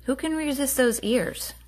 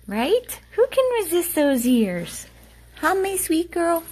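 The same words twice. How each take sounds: First: Said in the usual way. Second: Higher, louder sing-song coo to the dog. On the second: Real, not acted. Owner gushing at her dog in a high coo.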